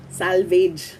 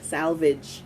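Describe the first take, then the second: First: Salvage with ending like "vayj"; Filipino-style pronunciation. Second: Salvage with short i, "SAL-vidge"; correct pronunciation. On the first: Teacher contrasting two versions, salvage as "SAL-veydge". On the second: Teacher showing the correct version, salvage as "SAL-vidge". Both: Shown as a demonstration. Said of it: "that's the correct pronunciation".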